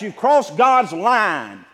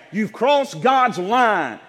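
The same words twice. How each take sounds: First: Said in the usual way. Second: Slow, shouted warning; preaching shout. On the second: Real, not acted. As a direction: drive it home word by word. Preacher hammering home trespass.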